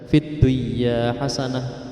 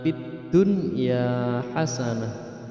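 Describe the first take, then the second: First: The n sound merges into the following y. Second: The n sound is pronounced clearly before y. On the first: The speaker calls it wrong. "Berarti dibaca fit dunya hasanah, itu tidak benar" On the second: The speaker calls it right. "kalau ini fid dunya harus jelas nunnya"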